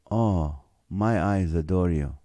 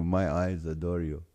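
First: Sexy voice. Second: Low, soft crooning to food; sexy voice. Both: Acted. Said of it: "gets his sexy voice going".

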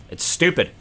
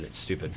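First: Higher and louder, punching stupid; excited outburst. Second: Much lower and softer, almost to himself; stunned murmur. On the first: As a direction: blurt it out in disbelief. Repeats the phrase louder. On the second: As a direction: let it slip out under your breath. Repeats the phrase while stunned. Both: Real, not acted.

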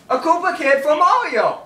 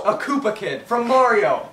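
First: Lifted repeat. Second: Said in the usual way. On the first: Shown as a demonstration. Insisting on the Koopa Kid joke to a friend, lifted repeat. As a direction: repeat it lifted, with more push.

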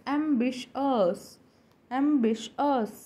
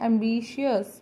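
First: Ambitious as "em-BISH-us"; short, slow ambitious in three syllables; corrected pronunciation. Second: Ambitious as "em-bee-shi-us"; an extra I before the end of ambitious; common mispronunciation. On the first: Teacher corrects learners on the word, careful pronunciation. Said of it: "but it is not ambitious". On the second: Teacher quotes the usual way, common mispronunciation. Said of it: "हम इसे बोलते हैं". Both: Shown as a demonstration.

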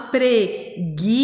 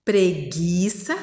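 First: PRE-GUI-ÇA in slow, separate beats; emphatic teacher's dictation; syllable by syllable. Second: Preguiça joined up, slow and rising at the end; connected read-back with a questioning lift; whole-word reading. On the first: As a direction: sound it out with a gap after each syllable. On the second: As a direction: blend the syllables into one careful word. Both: Shown as a demonstration. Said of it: "E a próxima".

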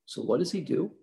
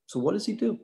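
First: Said in the usual way. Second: "do?" asked higher, with a rising question; rhetorical emphasis. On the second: Shown as a demonstration. Lecturer repeating the question to students with emphasis. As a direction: raise the pitch on "So what does he do?".

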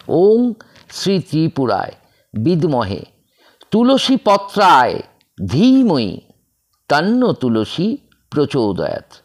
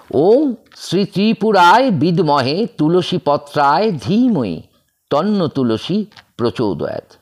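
First: Staccato. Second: Chanted, recite the whole mantra without breaks; fluent chanting. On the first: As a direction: chant ওম শ্রী ত্রিপুরায় in separate pieces, with gaps. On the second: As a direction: chant ওম শ্রী ত্রিপুরায় as one smooth flowing line. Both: Shown as a demonstration. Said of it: "আমি কেটে কেটে বলছি".

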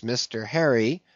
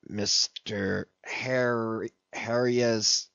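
First: Said in the usual way. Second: Softer, slow puzzled reading-out; muttered. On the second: A narrator's reading. Ahab puzzling over the letter's address, softly and slowly. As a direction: squint at the scrawl and mumble it slowly.

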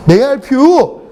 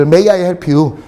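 First: "May I help you?" higher, with YOU lifted; emphatic repeat. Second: Said in the usual way. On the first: Shown as a demonstration. Teacher quizzing class on the meaning, "May I help you?" raised and emphatic.

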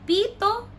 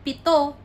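First: "pito" with high, long PI; stress on first syllable. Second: "pito" as pi-TO, loud TO; stress on last syllable. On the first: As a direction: lift PI in "pito" as a contrast. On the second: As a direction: snap to TO in "pito". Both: Shown as a demonstration.

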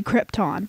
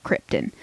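First: Krypton ending in a clear "tahn"; proper pronunciation. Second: Krypton ending in a weak "tun"; locals' pronunciation. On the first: Host saying how it should be pronounced, full-vowel Krypton. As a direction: keep the second vowel of Krypton open and full. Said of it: "if people could pronounce things properly". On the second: Host conceding what the locals call it, reduced-ending Krypton. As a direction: reduce the last vowel of Krypton to a schwa. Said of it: "the locals do call it". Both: Shown as a demonstration.

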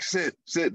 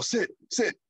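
First: Said in the usual way. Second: "Sit, sit." said a bit higher with authority; firm command. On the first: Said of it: "he's like". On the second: Retold or imitated. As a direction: stand tall and own the word "Sit". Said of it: "he stands as in authority more".

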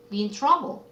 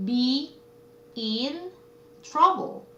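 First: Said in the usual way. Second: "Be in trouble" with a clear pause after each word. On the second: Shown as a demonstration. Teacher presenting a phrase to students, "Be in trouble" word by word. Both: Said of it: "어려움에 처하다".

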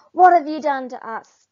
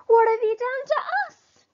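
First: Loud, angry warthog demand. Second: Much higher, loud animal-crowd demand; demanding other animals. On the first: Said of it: "demanded the warthogs". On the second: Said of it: "demand the other animals". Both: Acted.

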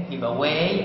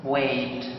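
First: "weigh" said like "way", no final t; weigh without t. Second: "weight" closed with a clear final t. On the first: Teacher contrasting weigh with weight for students: "weigh" without t. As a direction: end "weigh" on an open vowel. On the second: Teacher contrasting weight with weigh for students: "weight" with a final t. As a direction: finish "weight" on a crisp t. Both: Shown as a demonstration. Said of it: "أما كلمة weight معناها الوزن".

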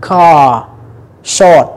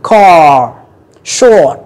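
First: Car, short in a British accent, slow, no R; long open vowels of British English, R dropped. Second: Car, short in an American accent with a strong R. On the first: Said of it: "đọc nó dài hơn một chút xíu". (giọng Anh-Anh, kéo dài nguyên âm) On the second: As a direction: roll the R of American English at the end. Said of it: "kéo cái hàm dưới lại". (giọng Anh-Mỹ, uốn lưỡi âm R cuối) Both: Shown as a demonstration.

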